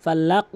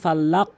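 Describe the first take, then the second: First: The final consonant is released with a pushed bounce. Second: The same.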